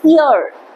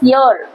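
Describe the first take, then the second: First: The word begins directly with a vowel. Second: The word begins with a Y sound. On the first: The speaker calls it right. "It's ear" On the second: The speaker calls it wrong. "A lot of people call this year. That's wrong"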